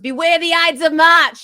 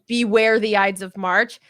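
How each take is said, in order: First: It is said in a strong Boston accent. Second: It is said in a plain, standard accent.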